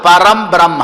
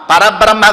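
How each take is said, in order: First: It is said as two words with an 'm'. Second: It is said as one word without an 'm'. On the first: The speaker calls it right. "పరం బ్రహ్మ, నపుంసకలింగం" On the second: The speaker calls it wrong. "పరబ్రహ్మ కాదు"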